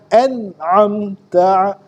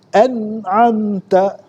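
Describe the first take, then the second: No difference in how they are said.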